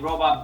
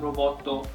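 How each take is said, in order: First: The word ends on a plain consonant. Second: The word ends with an extra vowel. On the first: The speaker calls it right. "instead of saying robot" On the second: The speaker calls it wrong. "katakana, when they're using that extra, that's a bad habit"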